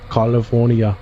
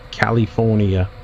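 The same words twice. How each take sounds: First: Lightly put-on Austrian accent; quick Austrian-accent imitation of California; Arnold Schwarzenegger. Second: Said in the usual way. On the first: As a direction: say California with a hint of an Austrian accent, broad AH in the first syllable. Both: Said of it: "as Arnold Schwarzenegger would say".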